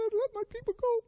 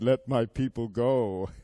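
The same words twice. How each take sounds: First: It is said in a high, squeaky voice. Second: It is said in a normal, unsqueaky voice.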